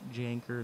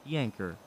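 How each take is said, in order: First: The name begins with a J sound. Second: The name begins with a Y sound. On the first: The speaker calls it wrong. "Not Janker" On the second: The speaker calls it right. "That's how you say it"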